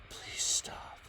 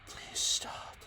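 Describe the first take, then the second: The two takes are said the same way.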